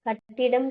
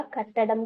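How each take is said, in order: First: "கட்டிடம்" with an i in the middle syllable; wrong word form. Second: "கட்டடம்" with an a in the middle syllable; correct word form. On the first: Teacher quizzes students on two spellings, "கட்டிடம்" with middle i. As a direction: say "கட்டிடம்" with "ṭi", not "ṭa". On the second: Teacher quizzes students on two spellings, "கட்டடம்" with middle a. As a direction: say "கட்டடம்" with "ṭa", not "ṭi". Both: Shown as a demonstration. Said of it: "கட்டடம் தான் சரி".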